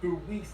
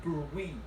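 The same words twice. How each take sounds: First: The word is said with a French-sounding pronunciation. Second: The word is said with a French-sounding pronunciation.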